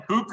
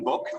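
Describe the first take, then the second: First: "book" said the Irish way, the vowel of Donegal. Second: "book" said the American way, for contrast. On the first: Irish guest showing kids how Ireland says "book". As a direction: give "book" its Irish Donegal sound, a short clipped vowel. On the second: Irish guest contrasting the American "book" for kids. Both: Shown as a demonstration. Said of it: "In Ireland, we say book rather than book".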